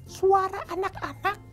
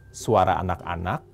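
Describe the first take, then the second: First: It is said in a high, childlike voice. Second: It is said in the speaker's normal voice.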